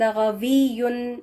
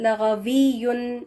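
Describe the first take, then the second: First: The middle sound is a clear v. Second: The middle sound is a clear v.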